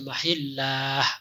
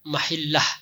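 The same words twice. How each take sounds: First: The vowel is drawn out long. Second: The vowel is said short. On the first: The speaker calls it wrong. "jangan dibaca mahillah gitu ya" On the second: The speaker calls it right. "seharusnya dibaca pendek"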